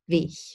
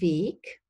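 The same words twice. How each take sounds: First: The word ends in a soft hissing fricative. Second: The word ends in a hard k sound. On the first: This is a northern regional variant. "a palatal or velar fricative instead" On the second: This is the standard form. "Standard German uses a voiceless plosive in final position"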